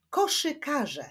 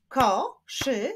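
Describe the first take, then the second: First: Said in the usual way. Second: "Koszykarze" split as ko, szy, ka, rze; four separate beats on "Koszykarze"; syllable by syllable. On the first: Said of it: "wyklaszczmy sylaby w wyrazie". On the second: Shown as a demonstration. Teacher clapping syllables for pupils, "Koszykarze" split in four. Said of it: "wyklaszczmy sylaby w wyrazie koszykarze".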